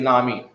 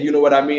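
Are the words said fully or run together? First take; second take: run together; fully. First: The words are run together into a short form. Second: Each word is said fully and separately. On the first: "you start throwing words together" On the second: "like how you say"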